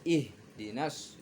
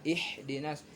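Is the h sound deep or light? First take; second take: deep; light. First: The h sound is deep, from the chest. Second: The h sound is light and plain. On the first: The speaker calls it right. "Yang benar ih" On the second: The speaker calls it wrong. "Tidak ih dinas"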